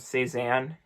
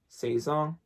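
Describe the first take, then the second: First: The name is pronounced the English way. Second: The name is pronounced the French way.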